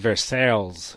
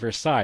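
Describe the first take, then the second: First: It is pronounced like an English spelling. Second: It is pronounced with a French pronunciation. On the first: The speaker calls it wrong. "It's the way I pronounced it" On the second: The speaker calls it right. "It's Versailles, it's French"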